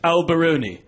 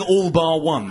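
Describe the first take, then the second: First: The words run together like an Italian name. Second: The words are said separately in plain English. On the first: The speaker is trying to sound posh. "some people are so posh" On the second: It is the venue's ordinary name. "meaning all bar one"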